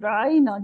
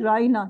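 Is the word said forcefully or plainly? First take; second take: forcefully; plainly. First: The word is said with extra force. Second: The word is said plainly, without extra force. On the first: It becomes a mocking insult. "یہ تھوڑا زور دے کے کہتے تھے" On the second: It is a respectful request for attention. "مسلمان کہتے تھے رائنا"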